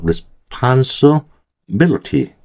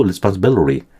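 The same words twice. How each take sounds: First: Very slow, higher "Responsibility", broken into parts; "Responsibility" drawn out syllable group by syllable group; careful demonstration. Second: "responsibility" run together with a flapped t, -billery; connected "responsibility", ending like -biliry; reduced form. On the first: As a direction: spell out "Responsibility" chunk by chunk. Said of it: "다시 한번 발음할게요". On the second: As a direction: soften the t in "responsibility" to a flap. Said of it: "해도 되고". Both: Shown as a demonstration.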